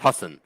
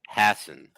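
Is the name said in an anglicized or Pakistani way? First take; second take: Pakistani; anglicized. First: The name is said with Pakistani pronunciation. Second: The first syllable is said like English 'ass'. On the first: "at least in Pakistan, it's pronounced Hassan" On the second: "it's pronounced how Jay would say ass"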